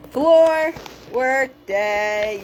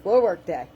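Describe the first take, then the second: First: Stretched slow and loud, FLOOR leaned on; playful slow announcement; drawn-out sing-song. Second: Said in the usual way. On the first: Shown as a demonstration. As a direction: announce it like a big slow proclamation.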